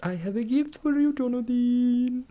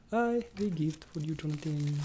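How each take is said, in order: First: Sing-song. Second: Said in the usual way. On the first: Acted. Sing-song high gift reveal.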